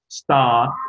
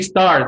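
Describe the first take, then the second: First: The word is said without an R sound. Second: The word is said with a clear R sound. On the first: This is how British speakers say it. "They do not pronounce the R. They don't pronounce the R. They say" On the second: This is how American speakers say it. "you say stars because it's American"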